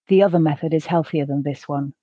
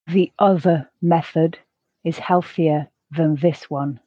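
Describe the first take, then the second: First: The sentence is said at a natural pace. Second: The sentence is said slowly. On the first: "the second at a more natural pace" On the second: "the first time slowly"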